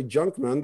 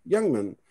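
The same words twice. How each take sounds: First: Junkman with a hard English J; mispronounced surname. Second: Youngman starting with a Y sound; corrected pronunciation. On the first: Retold or imitated. Man quoting the name he begged to avoid, mispronouncing it Junkman with English J. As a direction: start Junkman like "jump", not like "young". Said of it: "so they don't say Junkman". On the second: Shown as a demonstration. Man showing the name he wanted said, correctly pronounced Youngman with Y. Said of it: "pronounce Youngman correctly".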